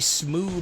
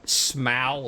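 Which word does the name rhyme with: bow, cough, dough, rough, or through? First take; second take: through; bow. First: The name rhymes with through. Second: The name rhymes with bow. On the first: "because he's through" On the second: "like a bow"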